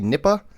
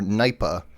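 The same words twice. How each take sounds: First: The first syllable does not sound like 'nye'. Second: The first syllable sounds like 'nye'. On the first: "N I P A" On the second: "like it would sound like it would be spelled N Y P A"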